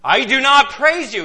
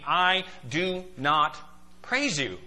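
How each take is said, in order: First: Loud, high emphatic declaration; serious, emphatic rebuke. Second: Slow, measured "I do not praise you"; plain, emphatic statement. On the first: Preacher repeating Paul's rebuke so it is taken seriously, loud and emphatic. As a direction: hit it hard, raised in pitch and volume. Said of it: "didn't think he was serious enough". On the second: Preacher quoting Paul's disapproval to the congregation, slow and emphatic. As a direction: set "I do not" apart word by word, falling on "praise you". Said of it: "he says very plainly". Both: Acted.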